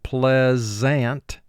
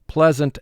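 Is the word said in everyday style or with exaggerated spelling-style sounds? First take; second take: spelling-style; everyday. First: It is said with each written sound made distinct. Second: It is said naturally, as in everyday speech.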